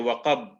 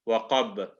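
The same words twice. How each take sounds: First: The final consonant stops flat without an echo. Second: The final consonant is released with an echoing bounce. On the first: "we stop there" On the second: "if we do it with qalqala"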